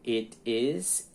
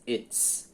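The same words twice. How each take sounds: First: "it is" as two separate words; full form. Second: "it's" in one syllable, ITS; contracted form. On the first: Teacher showing the uncontracted verb, "it is" in two syllables. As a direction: sound the vowel of "is" after "it". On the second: Teacher showing the contraction, "it's" as one syllable. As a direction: drop the vowel of "is" to make "it's". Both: Shown as a demonstration. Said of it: "forma contraída ou contracta".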